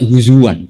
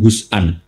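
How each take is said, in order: First: A w sound joins the two middle vowels. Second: A glottal stop sits in the middle. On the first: This is the Quraysh dialect form. "pakai wawu" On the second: This is the standard Arabic form. "Yang ada itu"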